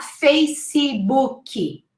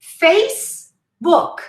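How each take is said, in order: First: Facebooky slowly as fay-see-boo-kee; Facebooky with ee after each consonant; wrong extra syllables. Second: Facebook, slowly, FACE then book; Facebook with no vowel after the consonants; two syllables. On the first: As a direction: mispronounce Facebooky in four beats. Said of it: "Two syllables, not Facebooky". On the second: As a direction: separate Facebook into two clean beats. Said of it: "Two syllables". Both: Shown as a demonstration.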